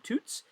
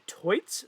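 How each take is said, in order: First: The vowel sounds like 'oo' in 'boots'. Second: The vowel sounds like 'oy' in 'toy'. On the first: This is how the commentators have been saying it. "we've all been saying Toots" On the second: This is how the organisers said it. "they pronounced it Toits"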